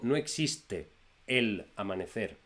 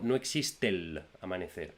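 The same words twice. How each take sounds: First: The final and initial vowels are said separately. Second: The final and initial vowels are joined together. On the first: The speaker calls it wrong. "yo no digo" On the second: The speaker calls it right. "yo digo"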